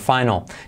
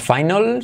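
First: It is pronounced the English way, 'fai-nal'. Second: It is pronounced like the Spanish word final. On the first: The speaker calls it right. "sino final" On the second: The speaker calls it wrong. "No es final"

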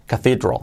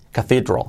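First: It is pronounced with native English sounds. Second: It is pronounced with native English sounds.

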